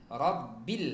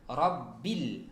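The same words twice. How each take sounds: Both takes have the same delivery.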